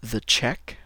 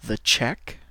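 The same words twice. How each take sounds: First: "The check" rising, stress on "The"; English model word. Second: "the check" with rising end; English model word. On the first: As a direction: repeat "The check" for learners. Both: Shown as a demonstration. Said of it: "et en anglais".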